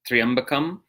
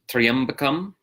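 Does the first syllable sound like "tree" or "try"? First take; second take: tree; tree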